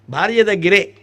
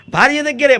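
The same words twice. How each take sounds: First: భార్య weighted, దగ్గరే eased off; stress on భార్య. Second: దగ్గరే hit high and loud, falling; stress on దగ్గరే. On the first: Speaker repeating the point to listeners, stress moved onto భార్య. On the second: Speaker insisting to listeners that it is only with the wife, దగ్గరే stressed. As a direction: lean hard on దగ్గరే. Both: Shown as a demonstration. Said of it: "మళ్ళీ ఎవరి దగ్గరే ఉండదు".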